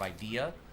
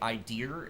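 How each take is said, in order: First: The word ends in a plain vowel. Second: The word ends with an added R sound. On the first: "instead of idea" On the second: "tend to say idea"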